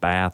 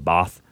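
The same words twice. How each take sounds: First: It is said with an American vowel. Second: It is said with a British vowel.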